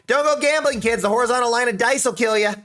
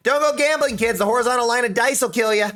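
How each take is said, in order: First: It is read in a put-on weird voice. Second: The same.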